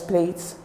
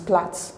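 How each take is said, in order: First: The vowel is a gliding diphthong, like 'plate'. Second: The vowel is a short single vowel, like 'plat'. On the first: This is how it is commonly said in Nigeria. The speaker calls it wrong. "Here in Nigeria, we pronounce it as plate" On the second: This is the standard British pronunciation. The speaker calls it right. "the proper British pronunciation is plat"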